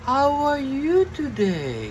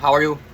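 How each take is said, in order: First: It is said in a wavy, fairy-tale tone. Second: It is said in a plain, flat tone.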